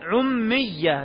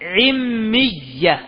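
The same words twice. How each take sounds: First: The first vowel is a 'u' sound. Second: The first vowel is an 'i' sound. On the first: "ويصح عمية بالضم" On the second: "بالكسر"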